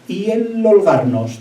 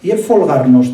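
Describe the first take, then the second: First: The word starts with a vowel, h silent. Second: The word starts with an f sound.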